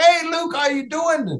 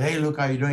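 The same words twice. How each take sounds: First: High-pitched, hearty hailing shout; imitating an exuberant hello to a buddy; upbeat greeting. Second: Miserable greeting. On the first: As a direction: call out a big cheery hello. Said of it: "the way I've seen him in the game". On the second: Retold or imitated. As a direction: greet him glumly, no energy. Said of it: "and he's miserable".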